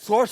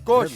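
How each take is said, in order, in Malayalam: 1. ഈ വാക്ക് സാധാരണ s ശബ്ദത്തിലാണ് തുടങ്ങുന്നത്. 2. ഈ വാക്ക് sk ശബ്ദത്തിലാണ് തുടങ്ങുന്നത്. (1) "സോഷ് അല്ല"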